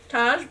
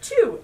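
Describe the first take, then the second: First: The name sounds like 'tahzh', ending in a zh sound. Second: The name sounds like 'too', ending in a vowel. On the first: The speaker calls it wrong. "I would have said Taj" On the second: The speaker calls it right. "is pronounced like it's spelled T U"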